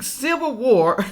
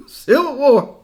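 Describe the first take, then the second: First: Said in the usual way. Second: Laughing as it is said again. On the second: Real, not acted. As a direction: chuckle through the words.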